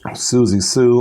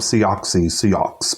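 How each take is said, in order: First: The name is said like 'Susie Sue'. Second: The name is said like 'See-ox-y See-ox'. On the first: The speaker calls it right. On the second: The speaker calls it wrong.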